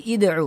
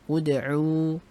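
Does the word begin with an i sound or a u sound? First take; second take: i sound; u sound. First: The word begins with an i vowel. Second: The word begins with a u vowel. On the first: The speaker calls it wrong. "Oh berarti id'u. Oh enggak" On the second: The speaker calls it right. "ini dhammah berarti bacanya dengan dhammah"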